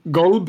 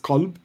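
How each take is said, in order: First: The word begins with a G sound. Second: The word begins with a hard K sound. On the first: This is the Gulf form. "Golb is how you'd say it in the Gulf" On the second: This is the classical Arabic form. "The correct classical Arabic translation is Qalb with a hard K"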